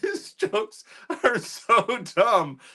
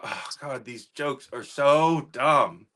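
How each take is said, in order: First: It sounds amused, with laughter. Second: It sounds annoyed and exasperated.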